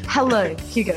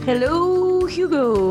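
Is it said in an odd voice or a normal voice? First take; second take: normal; odd. First: It is said in her normal voice. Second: It is said in an odd, put-on voice.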